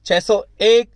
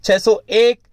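The two takes are said the same way.

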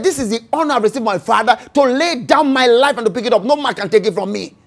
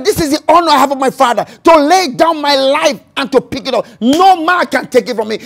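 First: Said in the usual way. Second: Louder, faster declaration; preached louder. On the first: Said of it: "he said (repeated)". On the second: Shown as a demonstration. Preacher repeating Jesus' words to the church, proclaimed louder. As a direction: proclaim it to the back row. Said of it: "he said (repeated, louder)".

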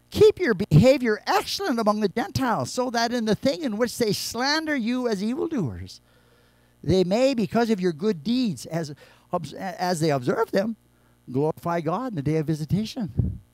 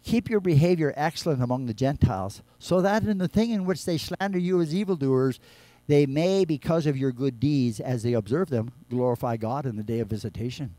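First: Verse reread louder and higher, pressed hard; preacher rereading Peter's verse with full force; emphatic reread. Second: Said in the usual way. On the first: Shown as a demonstration. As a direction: hammer the verse home. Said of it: "The world is looking on". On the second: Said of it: "Look what Peter says before that verse".

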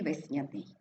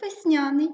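First: Весняний stressed on the last syllable, весня-НИЙ; другий варіант наголосу. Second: Весняний stressed on the middle syllable, вес-НЯ-ний; перший варіант наголосу. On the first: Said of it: "так і весняний". (весняний з наголосом на НИЙ) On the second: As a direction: push up on НЯ in весняний. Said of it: "Можемо говорити як весняний". (весняний з наголосом на НЯ) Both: Shown as a demonstration.

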